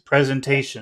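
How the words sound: The stressed syllable is on a low pitch. The speaker calls it right. "It'll be low because we want to sound serious"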